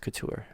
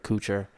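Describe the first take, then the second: First: The name is said with a French pronunciation. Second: The name is said with an anglicized pronunciation. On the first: The speaker calls it right. "It's it's couture. That's how it's pronounced in France" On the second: The speaker calls it wrong. "my dad says and my family say couture, and that's ju- I'm sorry, but it's wrong"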